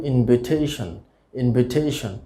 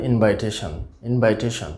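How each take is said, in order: First: ইনভিটেশন as "in-vi-TAY-shon"; short "vi", long "tay" in ইনভিটেশন; correct pronunciation. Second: ইনভাইটেশন with "vai", like invite; common mispronunciation. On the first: Teacher models the word for learners, correctly pronounced. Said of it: "সঠিক উচ্চারণ হবে". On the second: Teacher shows the usual mistake, mispronounced. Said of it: "ইনভাইটেশন বলবো না". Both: Shown as a demonstration.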